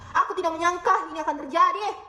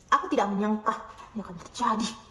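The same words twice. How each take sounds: First: The voice sounds angry and sharp. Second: The voice sounds sarcastic and mocking. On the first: "dengan nada marah" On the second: "dengan nada sinis"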